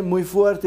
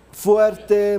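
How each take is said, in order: First: Said in the usual way. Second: Emphatic shout. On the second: Shown as a demonstration. Coach asks the room's confidence, answering loudly. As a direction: call out the word Fuerte loud and strong. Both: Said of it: "¿cuál es el suyo?".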